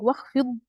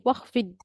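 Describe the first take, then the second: First: The final consonant is heavy and full. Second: The final consonant is light and thin. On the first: The speaker calls it right. "instead of saying" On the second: The speaker calls it wrong. "we say"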